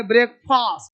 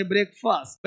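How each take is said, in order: First: ब्रेकफास्ट as written, with long "faast"; spelling pronunciation. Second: ब्रेकफास्ट softer, with short "fust"; spoken pronunciation. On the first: Teacher showing how it is written, long "faast". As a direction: open up the last vowel of ब्रेकफास्ट to "aa". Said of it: "ब्रेकफास्ट लिखेंगे". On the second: Teacher showing how it is read, soft short "fust". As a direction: reduce the end of ब्रेकफास्ट to a quick "fust". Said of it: "पढ़ेंगे". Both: Shown as a demonstration.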